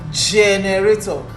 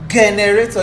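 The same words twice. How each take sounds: First: It begins with a soft j sound. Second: It begins with a hard g sound. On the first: The speaker calls it right. "you say generator. Make it soft" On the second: The speaker calls it wrong. "You don't say generator"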